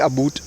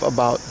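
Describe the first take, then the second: First: It is said with a Canadian-style vowel. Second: It is said with a standard American vowel. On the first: "they'll teach you how to say about" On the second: "instead of about"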